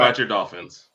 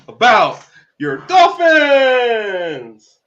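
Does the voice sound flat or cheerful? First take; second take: flat; cheerful. First: It is said in a flat, unenthusiastic tone. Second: It is said in a forced, cheerful tone. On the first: "Don't don't say it like that" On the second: "That's so fake"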